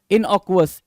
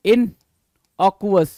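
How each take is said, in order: First: Said in the usual way. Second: "innocuous" stretched very slowly, each syllable held; drawn-out pronunciation. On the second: Shown as a demonstration. Teacher drawing out innocuous for the class, very slow. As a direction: spell out "innocuous" slowly for students. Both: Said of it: "innocuous बोलते हैं".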